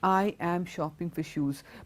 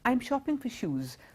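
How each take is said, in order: First: I am is said as two full words. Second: I am is contracted into one short syllable. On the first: The speaker calls it wrong. "people who say it like that" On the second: The speaker calls it right. "In a natural way"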